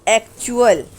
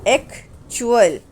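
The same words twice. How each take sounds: First: Said in the usual way. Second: एक्चुअल drawn out very slowly, each sound separate; slow vowel demo. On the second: Shown as a demonstration. Teacher slowly spelling out एक्चुअल for students. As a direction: stretch every sound of एक्चुअल. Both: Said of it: "ये किसकी आवाज़ देता है?".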